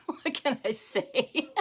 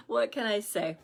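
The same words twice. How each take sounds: First: Laughing, slow and high; laughing helplessly at real life. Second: Said in the usual way. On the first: Real, not acted. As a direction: giggle through it, helpless. Laughing after child interruption.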